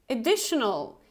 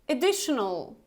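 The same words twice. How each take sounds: Both takes have the same delivery.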